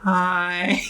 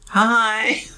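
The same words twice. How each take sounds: First: The greeting sounds glum and unenthusiastic. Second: The greeting sounds somewhat more cheery.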